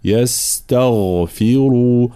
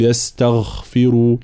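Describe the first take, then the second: First: "يستغفروا" with a voiced, full غ; voiced heavy gh. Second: "يستغفروا" with the غ voiceless, like خ; wrong kha-like غ in "يستغفروا"; weak gh like kha. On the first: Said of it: "لا". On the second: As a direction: let the غ in "يستغفروا" go unvoiced. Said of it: "لا نقول". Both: Shown as a demonstration.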